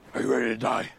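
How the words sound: It is said in a Batman voice.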